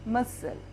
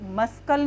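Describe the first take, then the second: First: The c is silent, with no k sound. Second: A k sound follows the s. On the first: The speaker calls it right. "सी is silent" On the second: The speaker calls it wrong. "मस्कल नहीं पढ़ेंगे इसको"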